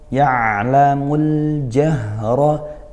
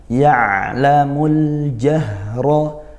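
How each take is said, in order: The two takes are said the same way.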